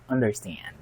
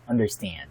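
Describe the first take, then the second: First: It is said with an American English accent. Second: It is said with an American English accent.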